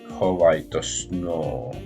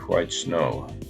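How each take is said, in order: First: It is said with Japanese-style pronunciation. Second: It is said with plain English pronunciation.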